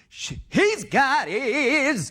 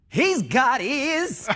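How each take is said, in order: First: The line is said in a bigger, exaggerated way. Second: The line is said in a smaller, plainer way. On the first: "he does it bigger" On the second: "it killed just the way he's got ears"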